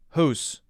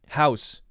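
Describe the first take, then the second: First: It is said with a Canadian vowel. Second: It is said with an American vowel.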